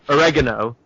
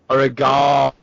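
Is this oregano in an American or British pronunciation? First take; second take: American; British. First: It is said with an American pronunciation. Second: It is said with a British pronunciation. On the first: The speaker calls it wrong. "The Americans say that" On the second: The speaker calls it right. "We need to push it up some"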